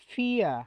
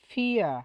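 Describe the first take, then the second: Both takes have the same delivery.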